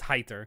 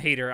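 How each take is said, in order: First: The name does not sound like 'hater'. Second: The name sounds like the English word 'hater'. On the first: This is the name's actual pronunciation. The speaker calls it right. "I know it's Heiter" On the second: This is a personal habit of reading the name. The speaker calls it wrong. "I call him Hater"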